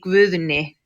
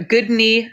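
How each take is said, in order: First: The name is said with Icelandic pronunciation. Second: The name is said with English pronunciation. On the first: "with the accent, you would say Guðni" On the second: "I'll just say the English pronunciation"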